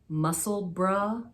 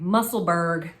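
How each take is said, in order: First: The name ends in a short 'bruh' sound. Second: The name ends in a 'burg' sound. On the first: "It's muscle bruh, not so much burra" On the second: "the Pittsburgh pronunciation of it"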